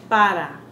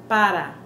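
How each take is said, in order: The two takes are said the same way.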